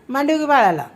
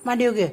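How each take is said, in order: First: Louder, insistent "मांडीवर" on the retry; "मांडीवर घे" said louder and firmer with the stress on "मांडीवर"; firmer repeat. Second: Said in the usual way. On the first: Real, not acted. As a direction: repeat it so she finally listens.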